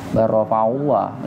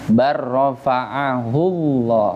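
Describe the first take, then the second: First: The 'hu' sound before 'llah' is left out. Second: The 'hu' sound before 'llah' is clearly pronounced. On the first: The letter is lost, which can change the meaning. The speaker calls it wrong. "hilang hu-nya" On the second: Every letter is kept and the meaning is preserved. The speaker calls it right. "Harusnya barofa'ahullah"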